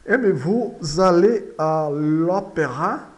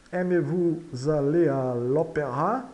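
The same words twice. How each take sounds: First: Slow, loud French model sentence; deliberate, projected question for repetition; slow model reading. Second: Said in the usual way. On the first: Shown as a demonstration. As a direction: read it out slowly and firmly for learners.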